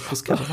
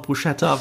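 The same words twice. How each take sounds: First: "Bruschetta" with an s-k sound; correct pronunciation. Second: "Bruschetta" with a sh sound; habitual mispronunciation. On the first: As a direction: say "Bruschetta" as broos-KET-ta. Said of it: "dass es Bruschetta heißt". ("Bruschetta" italienisch als "Brusketta") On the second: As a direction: say "Bruschetta" as broo-SHET-ta. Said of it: "selbst ich sag immer noch". ("Bruschetta" falsch mit sch-Laut) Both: Shown as a demonstration.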